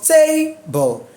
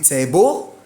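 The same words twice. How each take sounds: First: The stress is on the first syllable. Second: The stress is on the second syllable. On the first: The speaker calls it right. "No, it is what?" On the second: The speaker calls it wrong. "Let's assume we capitalize the B L E and we make T A small letter"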